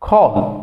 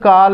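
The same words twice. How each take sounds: First: The vowel is a short o. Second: The vowel is an aa. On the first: The speaker calls it right. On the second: The speaker calls it wrong.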